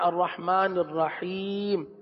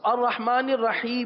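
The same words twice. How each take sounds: First: The last word ends on a bare consonant. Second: The last word ends with a short vowel. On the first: "لیکن ہم پڑھتے ہیں" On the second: "اب الرحمن الرحیم ہی ہے"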